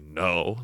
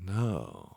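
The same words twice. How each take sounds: First: It sounds like a flat, plain refusal. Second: It sounds knowing, teasing and suggestive.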